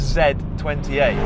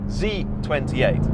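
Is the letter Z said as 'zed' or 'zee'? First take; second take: zed; zee. First: The letter is pronounced the British way, zed. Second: The letter is pronounced the American way, zee. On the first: "I'm British, and that means every fibre in my being wants to call this car the" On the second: "but I will try"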